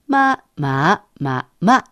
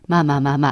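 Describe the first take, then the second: First: The four tones use a wide pitch range. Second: The four tones use a narrow pitch range. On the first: The speaker calls it right. "一声、二声、三声、四声" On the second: The speaker calls it wrong. "なかなかこう幅が取れなくて"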